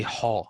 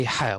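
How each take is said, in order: First: "ha" said heavy and rounded, like "haw"; wrong ha. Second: "ha" said light and thin, mouth spread; teacher models a light "ha"; right ha. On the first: Tutor to student, showing the wrong heavy "ha". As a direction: show the heavy rounded "ha" as the error. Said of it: "We never say ha". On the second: Tutor to student, modelling the correct light "ha". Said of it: "Here we say ha". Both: Shown as a demonstration.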